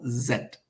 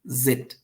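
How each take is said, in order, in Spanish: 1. Se pronuncia con acento británico. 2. Se pronuncia con acento americano. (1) "los británicos en Londres pronuncian la letra Z como Z" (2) "Los americanos pronuncian la letra Z como zit"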